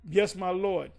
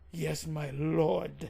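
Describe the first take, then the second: First: It sounds fake and insincere. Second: It sounds sincere and is said from the chest.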